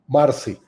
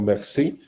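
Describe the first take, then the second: First: The name is said without a French pronunciation. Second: The name is said with a French pronunciation.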